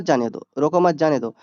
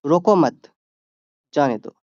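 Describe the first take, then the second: First: रोको मत जाने दो run together in one breath; no comma pause, one flowing phrase. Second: रोको मत, pause, जाने दो; pause after मत. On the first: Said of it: "यहाँ कॉमा नहीं है तो रुकना नहीं पड़ रहा है". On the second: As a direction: stop after मत. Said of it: "अब यहाँ पे रुक के, रुक के बोले हैं ना". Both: Shown as a demonstration.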